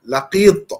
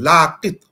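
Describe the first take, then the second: First: The second-syllable vowel is held long. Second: The second-syllable vowel is kept short. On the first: The speaker calls it right. "kalau I tanda panjang macam tu, maknanya Laqit" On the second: The speaker calls it wrong. "Bukan Laqit"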